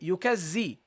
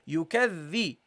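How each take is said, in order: First: The doubled consonant is a buzzing z sound. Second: The doubled consonant is a voiced th sound. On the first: The speaker calls it wrong. "Don't say yukazzi. Okay? Don't say z" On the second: The speaker calls it right. "This is the dhal. So you say yukadhi"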